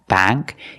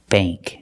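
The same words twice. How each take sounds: First: The vowel is the short a of cat. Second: The vowel is the long a of day. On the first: The speaker calls it wrong. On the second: The speaker calls it right. "It's bank"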